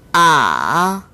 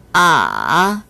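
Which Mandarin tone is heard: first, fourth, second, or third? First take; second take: third; third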